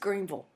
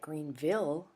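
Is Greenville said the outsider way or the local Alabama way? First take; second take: local; outsider. First: Greenville is said the local Alabama way. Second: Greenville is said the way outsiders say it.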